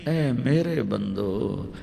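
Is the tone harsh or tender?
tender. It is said in a soft, loving tone. The speaker calls it right.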